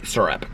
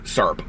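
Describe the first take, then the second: First: The word is said with two full syllables. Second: The word sounds like one syllable, 'serp'. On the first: This is how people outside Indiana say it. "We don't say syrup" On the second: This is how people from Indiana say it. "we say in Indiana syrup, like S E R P"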